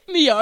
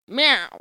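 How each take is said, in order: First: It is said in a Scottish accent. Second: It is said in a Texan accent.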